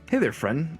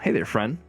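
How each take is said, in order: First: It is said in a put-on character voice. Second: It is said in his own normal voice.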